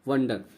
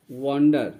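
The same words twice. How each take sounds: First: "वंडर" with a short first vowel, as in "wun-der"; teacher's corrected "वंडर", brief first vowel; corrected short-vowel pronunciation. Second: "वंडर" with a long open first vowel, वांडर; teacher's first take of "वंडर", sounded वांडर; long-vowel pronunciation. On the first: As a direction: say "वंडर" with a short uh, not a long aa. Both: Shown as a demonstration. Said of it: "माफ कीजिएगा वंडर लिखा जाएगा".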